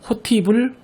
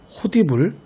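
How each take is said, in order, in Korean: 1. 가운데 자음은 t 소리입니다. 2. 가운데 자음은 d 소리입니다. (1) "호티불, 호치불이라고 발음하면 안 되고" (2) "발음의 편의만 생각해서"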